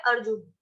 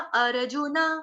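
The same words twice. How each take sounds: First: The word ends on a bare n sound. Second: The word ends with a full na syllable. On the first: This is the everyday Hindi reading. "Hindi में हम कैसे पढ़ते हैं?" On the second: This is the Sanskrit recitation reading. "जुन न, तो न पूरा है।"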